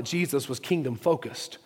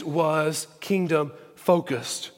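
First: Said in the usual way. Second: "kingdom-focused" slowly, split by pauses; slow emphasis. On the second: Real, not acted. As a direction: spell out "kingdom-focused" as a weighty sermon point. Point repeated slowly for emphasis.

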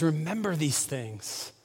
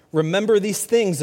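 First: Softer and slower, dwelling on each word; soft, reflective. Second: Said in the usual way. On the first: Shown as a demonstration. Pastor echoing God's plea to the congregation, soft and slow. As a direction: let "Remember these things" fall quiet and slow.

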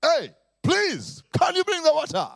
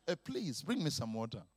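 First: Exasperated father's shout; high, loud demand on the third ask. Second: Soft, low repeat ask; father asking his son mildly; polite second request. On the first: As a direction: raise your voice at a son who hasn't listened. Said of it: "spoke to me in a very loud voice". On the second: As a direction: keep it quiet and patient. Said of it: "The third time". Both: Acted.

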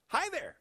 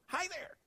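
First: Put-on much higher, squealed baby greeting; delighted baby squeal. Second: Put-on much higher, softer baby chirp; a toddler's tiny repeated greeting; softer baby squeal. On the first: Toddler greeting a stranger in a diner, high squeal. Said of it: "heard little Eric squeal with delight". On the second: Baby repeating his greeting, softer high chirp. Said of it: "Two words he thought were one".

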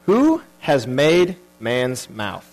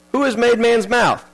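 First: Very slow, lower, weighty scripture voice; slow solemn reading. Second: Said in the usual way. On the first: Shown as a demonstration. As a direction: read it out slowly and gravely, like God speaking.

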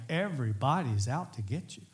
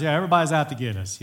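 First: Unhurried, weighty on "everybody's"; earnest complaint. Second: Quick, louder mock complaint; joking complaint. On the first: Retold or imitated. Preacher relating to David's feeling of being hunted, earnest delivery. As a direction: say it in earnest, each word given room. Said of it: "sometimes it isn't a joke". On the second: Family's running joke at the house, joking quick complaint. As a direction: toss it off fast as a running joke. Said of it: "We kind of have a joke".

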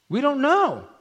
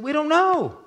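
First: High, louder, shrugging "We don't know."; evasive parents. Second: High, louder "We don't know." with the word "know" dropped off; evasive parents. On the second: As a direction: repeat "We don't know." in the same high put-on voice. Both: Acted. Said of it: "They said".

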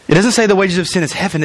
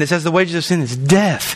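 First: "say" lifted, fast wrong reading with "heaven"; stress on say. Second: "death" landed with a firm fall; stress on death. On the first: Preacher correcting the verse, stressing "say". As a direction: lean on "say", rush through "heaven". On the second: Preacher reading the true verse, landing "death". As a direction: drop hard onto "death". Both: Shown as a demonstration.

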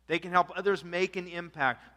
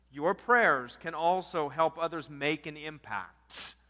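First: Said in the usual way. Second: Slow, weighty stress on prayers; emphatic. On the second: Shown as a demonstration. Preacher stresses the point to the congregation, slow and emphatic. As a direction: lean on each word to drive it home.

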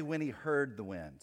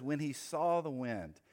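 First: HEARD picked out as the wrong word; stress on HEARD. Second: SAW leaned on, slower phrase; stress on SAW. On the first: Preacher showing what the verse doesn't say, stress on HEARD. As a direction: lean on HEARD to contrast it with saw. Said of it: "It doesn't say". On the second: Preacher showing what the verse says, stress on SAW. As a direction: point up the word SAW with weight. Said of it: "Notice what it says". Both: Shown as a demonstration.

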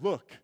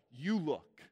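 First: Said in the usual way. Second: "You look" with the weight on "You"; stress on you. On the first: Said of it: "That's not". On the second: Shown as a demonstration. Preacher showing the accusing way, stress on "You". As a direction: lean on "You" like a finger in the face.

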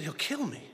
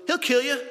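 First: Softer, disbelieving repeat; stunned echo. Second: Sudden higher, louder snap back; blunt retort. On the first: Pastor echoes his friend's words back, stunned and soft. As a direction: let it land, barely said aloud. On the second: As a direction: friend Steve fires back at the pastor, sharp and loud. Friend's blunt deadpan reply. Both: Retold or imitated.

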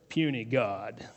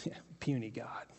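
First: A hint of Hulk, lower and softer; Hulk's sneer. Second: Whispered private sneer. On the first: Hulk sneering at the beaten Loki, low dismissive line. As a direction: drop it dismissively, lightly voiced. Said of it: "And then he says". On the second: Retold or imitated. Elijah thinking while watching the prophets, whispered scorn. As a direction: breathe it under your breath.

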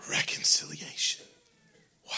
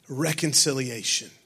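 First: Whispered, breathy "Reconciliation.". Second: Said in the usual way. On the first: Shown as a demonstration. Pastor repeating the key word to the church, whispered.

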